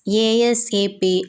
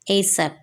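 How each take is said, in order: First: Each letter is spoken separately. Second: It is spoken as a single word. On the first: "You can pronounce it as ASAP" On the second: "say it like a word"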